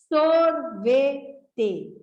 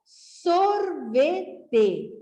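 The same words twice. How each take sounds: First: Said in the usual way. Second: Sorvete drawn out slowly; teacher slowly joining the syllables; slow blended word. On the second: Shown as a demonstration. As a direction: stretch sorvete out as one word. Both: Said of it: "Para juntar".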